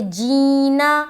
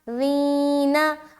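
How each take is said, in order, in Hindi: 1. यह j ध्वनि से शुरू होता है। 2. यह नरम, हल्की z ध्वनि से शुरू होता है। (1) "पहला तो आपने हर्फ को जीम बना दिया" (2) "नरमी के साथ"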